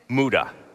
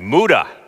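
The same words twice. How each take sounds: First: The word is said in a calm, plain voice. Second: The word is said forcefully with lots of energy. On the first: "Try it" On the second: "Now say it with some heart and energy"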